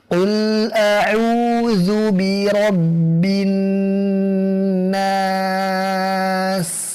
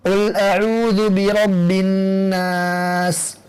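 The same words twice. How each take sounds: First: It is recited slowly and deliberately. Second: It is recited quickly. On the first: It suits someone seeking a certified recitation chain. "Membacanya dengan lambat tanpa tamtid, seperti ini" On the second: It suits someone wanting to maximize reward. "lebih cepat lagi daripada tadwir"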